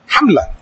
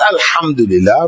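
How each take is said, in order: First: It is said quickly and clipped. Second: It is said slowly and fully.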